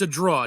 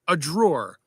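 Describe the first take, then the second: First: The word ends without an R sound. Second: The word ends with an R sound. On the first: This is how the speaker's mother said it. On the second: This is the usual name for it.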